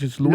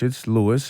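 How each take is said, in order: First: The name is given a Spanish pronunciation. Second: The name is given an English pronunciation. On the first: "if you're speaking Spanish or another language" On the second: "If you're speaking English"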